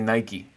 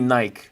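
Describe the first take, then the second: First: It is said in the American pronunciation. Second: It is said in the speaker's home regional pronunciation. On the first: "I believe that Americans say Nike" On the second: "Where I'm from, we say Nike"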